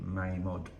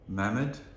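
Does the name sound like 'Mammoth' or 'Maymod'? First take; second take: Maymod; Mammoth. First: The name sounds like 'may-mod'. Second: The name sounds like 'mammoth'. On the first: The speaker calls it right. "It's supposed to be Maymod" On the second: The speaker calls it wrong. "we uh, pronounce it wrong"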